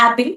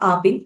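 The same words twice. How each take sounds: First: "apple" with a flat, open "a" as in "cat"; "æ-pil" for "apple"; others' pronunciation of apple. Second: "apple" with a back "ah" at the start; "apple" opened with "ah", not "æ"; local pronunciation of apple. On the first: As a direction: say "apple" starting with a short front "æ" sound. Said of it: "Some people call it as apple". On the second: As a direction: say "apple" as "AH-pil". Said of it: "we call it as apple". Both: Shown as a demonstration.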